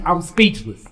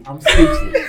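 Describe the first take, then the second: First: Said in the usual way. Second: "speechless" squeaked high while laughing; high laughing squeal. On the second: Real, not acted.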